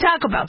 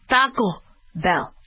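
First: It is said in a plain English accent. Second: It is said with an exaggerated Spanish accent. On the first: The speaker is not showing off. The speaker calls it right. "Say Taco Bell" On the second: The speaker is overdoing it to seem fluent. The speaker calls it wrong. "Don't go Taco Bell"

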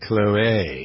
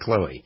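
First: The name is said with its accented final vowel. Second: The name is said the usual familiar way. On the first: This is the newly claimed correct pronunciation. "That's what they say" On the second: This is how everyone has been saying it. "instead of"

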